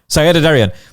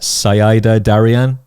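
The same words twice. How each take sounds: First: The name is said at a faster pace. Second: The name is said at a slower pace.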